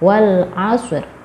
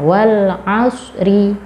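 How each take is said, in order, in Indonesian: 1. Kata terakhir berhenti tanpa vokal akhirnya. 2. Kata terakhir berakhir dengan vokal penuh.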